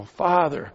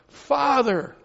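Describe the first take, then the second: First: Said in the usual way. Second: High, fervent cry of Father. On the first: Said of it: "You know". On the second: Retold or imitated. Preacher crying out to God, fervent high cry.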